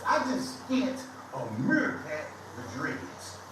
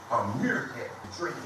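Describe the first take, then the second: First: Slow punchline. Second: "meerkat" stressed, lower, ending on a rise; repeated punchline. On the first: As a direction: say "meerkat with dreads" slowly and deliberately. Retelling insult, repeats punchline. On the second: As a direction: echo the jab with a questioning lilt. Repeats the insult for effect. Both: Real, not acted.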